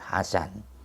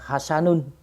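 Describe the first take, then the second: First: The name ends on a bare, unvowelled final consonant. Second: The name ends with an added -un syllable. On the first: The speaker calls it right. "nunnya ini disukun jadi Hasan" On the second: The speaker calls it wrong. "Tidak perlu kita membaca Hasanun"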